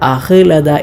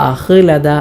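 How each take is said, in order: No difference in how they are said.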